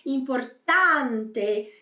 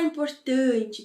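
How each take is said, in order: First: The A vowel is wide open, not nasal. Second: The A vowel is closed and nasalized. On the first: The speaker calls it right. "ela é aberta, então pronuncia bem, abre bem a boca" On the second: The speaker calls it wrong. "nada de falar importante, tá? Como a gente falaria"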